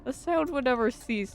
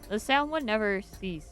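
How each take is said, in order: First: It is read in a put-on character voice. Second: It is read in the speaker's natural voice.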